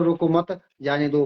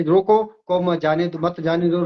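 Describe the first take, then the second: First: "रोको मत" as one unit, then "जाने दो"; group "रोको मत" so it means don't stop; lower, "रोको मत" run together before "जाने दो"; comma after मत. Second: "रोको" set apart, then "मत जाने दो"; comma after रोको. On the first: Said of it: "उल्टा अर्थ हो गया". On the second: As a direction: break after "रोको" so it means stop. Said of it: "उल्टा अर्थ है". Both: Shown as a demonstration.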